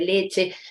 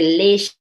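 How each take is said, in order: First: The middle consonant is a sharp ch sound. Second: The middle consonant is a soft sh sound. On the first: The standard pronunciation. "en vez de" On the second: A pronunciation influenced by Guarani. "tienen el sonido de sh"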